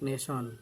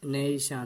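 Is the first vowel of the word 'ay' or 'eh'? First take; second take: eh; ay. First: The first vowel sounds like 'eh'. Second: The first vowel sounds like 'ay'. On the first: The speaker calls it wrong. "Not নেশন" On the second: The speaker calls it right. "কি বলতে হবে? নেইশান"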